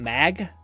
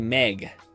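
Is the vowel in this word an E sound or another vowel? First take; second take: another vowel; E sound. First: The vowel is not an E sound. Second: The vowel is an E sound. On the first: "But I don't say m- m- Mag" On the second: "I say Meg like with an E"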